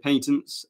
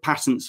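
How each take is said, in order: First: It is said with a British pronunciation. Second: It is said with an American pronunciation. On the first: "In Britain, we do say patents" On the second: "patents for America"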